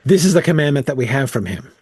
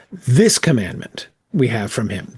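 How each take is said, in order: First: Said in the usual way. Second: "This" leaned on as the opening word; stress on this. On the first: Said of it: "what he is emphasizing is, is it is not". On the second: Shown as a demonstration. Teacher showing the group Randall's emphasis, stressing "This". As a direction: point hard with the word "This" before "commandment". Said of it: "what he is emphasizing is".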